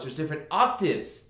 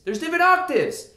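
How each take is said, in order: First: Said in the usual way. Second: Much higher and louder on different octaves; high octave demo. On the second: Shown as a demonstration. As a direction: jump up an octave to show the range.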